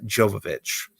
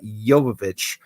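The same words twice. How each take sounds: First: The surname begins with a J sound. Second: The surname begins with a Y sound. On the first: The speaker calls it wrong. "not like a J" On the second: The speaker calls it right. "It is pronounced like a Y"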